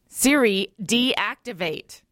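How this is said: It is said in a stern tone.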